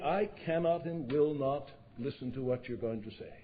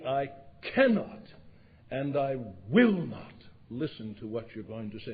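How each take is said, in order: First: The words come out plainly, without built-up pressure. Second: Pressure builds before cannot and will not, forcefully released.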